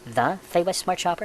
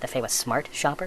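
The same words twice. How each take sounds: First: The stress falls on the word the. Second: The stress falls on the word smart. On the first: It implies there is only one such shopper. "I mean, are there more than one?" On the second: It implies there could be a dumb shopper. "is there a dumb way to do it?"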